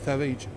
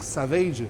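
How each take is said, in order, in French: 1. Le son s est zézayé, comme th. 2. Le son s se prononce normalement. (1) "avec le cheveu sur la langue, il dit Savage" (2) "au lieu de dire Savage"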